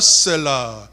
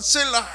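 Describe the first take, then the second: First: It is said plainly at normal loudness. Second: It is shouted loudly with raised voice.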